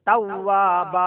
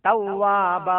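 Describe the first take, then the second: The two takes are said the same way.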